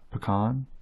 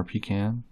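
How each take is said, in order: First: Pecan as puh-KAHN; usual pecan. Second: Pecan as PEE-can; old people's pecan. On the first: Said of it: "only old people I've really heard say". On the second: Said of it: "only old people I've really heard say pecan". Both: Shown as a demonstration.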